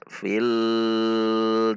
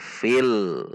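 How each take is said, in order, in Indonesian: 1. Bunyi l dipanjangkan terlalu lama. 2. Bunyi l ditahan sebentar dan halus. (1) "Atau dipanjangkan, tidak boleh juga" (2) "Ditahan di titik lam sampai mengucapkan huruf yang ada di depannya"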